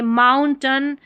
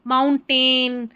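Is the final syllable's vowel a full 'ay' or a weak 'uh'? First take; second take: uh; ay. First: The last syllable has a weak 'uh' vowel. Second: The last syllable has a full 'ay' vowel. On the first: The speaker calls it right. "ए आई का उच्चारण अ भी होता है" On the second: The speaker calls it wrong. "इसको कई लोग जो है माउंटेन"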